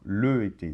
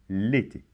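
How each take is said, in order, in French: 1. L'article forme une syllabe séparée devant la voyelle. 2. Le son L est rattaché directement à la voyelle. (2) "comme si le L était collé"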